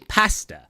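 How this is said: The first vowel sounds like the one in pass. "We say pasta, pa-a-sta, like the word pass"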